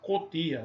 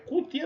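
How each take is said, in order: First: The first vowel sounds like 'o'. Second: The first vowel sounds like 'u'. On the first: The speaker calls it wrong. "nós pronunciamos com O" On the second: The speaker calls it right. "é cutia mesmo"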